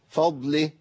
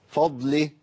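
The two takes are said the same way.

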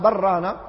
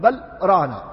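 First: The two words run together without a pause. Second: A brief pause separates the two words. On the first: The two words sound like one word. The speaker calls it wrong. "كأنها كلمة واحدة" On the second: The two words stay distinct words. The speaker calls it right. "لكنهم يفصلون، يقولون بل ران"

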